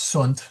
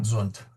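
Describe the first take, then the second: First: The word begins with a hissing S sound. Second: The word begins with a buzzing Z sound. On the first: The speaker calls it right. "it's sunt" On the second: The speaker calls it wrong. "not zunt"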